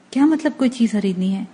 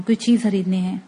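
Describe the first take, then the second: First: Mildly taken aback, questioning what was said; flustered echo question. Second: Said in the usual way. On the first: A narrator's reading. Man startled by her shopping plan, mildly flustered question. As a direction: echo it back in mild alarm. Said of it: "میں بوکھلا گیا تھا".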